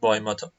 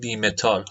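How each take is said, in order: First: The first syllable sounds like 'bye'. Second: The first syllable sounds like 'bee'. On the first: This is how it really is said. The speaker calls it right. "ما میگیم بای متال" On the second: This is how colleagues in the trade say it. The speaker calls it wrong.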